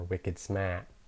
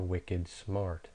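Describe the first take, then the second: First: The r in smart is dropped. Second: The r in smart is pronounced.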